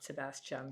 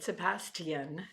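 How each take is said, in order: First: The name is said with American pronunciation. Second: The name is said with British pronunciation. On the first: This is how the name is not said in the series. The speaker calls it wrong. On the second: This is how the characters in the series say it. The speaker calls it right. "as they say"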